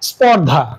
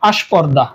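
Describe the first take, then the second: First: The word starts directly with the consonant cluster. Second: An extra vowel is added before the consonant cluster. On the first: "আবার স্পর্ধা ছিল" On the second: "শুরুতে আ, এই যে একটি নতুন আরেকটি স্বরের আগমন ঘটেছে"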